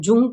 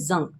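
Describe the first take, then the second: First: The vowel sounds like 'oo', following the spelling. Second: The vowel sounds like 'uh', as in 'young'. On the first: "इसको लिखने में हम लोग जे यू N G अ, जुंग करके लिख रहे हैं" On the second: "but in इसको प्रोनाउंस करते हैं हम जंग"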